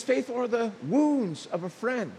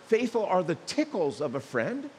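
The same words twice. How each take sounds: First: Wounds leaned on with a falling tune; stress on wounds. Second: Said in the usual way. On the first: Shown as a demonstration. Preacher correcting the verse to his congregation, stressing "wounds". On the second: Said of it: "it's not".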